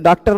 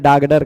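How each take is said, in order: First: The middle consonants are a crisp k and t. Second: The middle consonants are softened to g and d. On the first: The speaker calls it right. "जैसे डॉक्टर नहीं बोल पा रही थी" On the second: The speaker calls it wrong. "डागडर कह दी"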